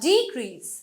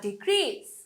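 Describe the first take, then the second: First: The stress is on the first syllable. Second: The stress is on the second syllable. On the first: It is used as a noun. "নাউনে আমাদের first অংশে stress হয়" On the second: It is used as a verb. "Verb হলে"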